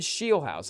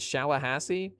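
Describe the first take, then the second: First: The surname is said with two syllables. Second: The surname is said with four syllables. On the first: The speaker calls it right. "Nathan Shieldhouse, I guess, is how it's" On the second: The speaker calls it wrong. "I guess not Shalahassee"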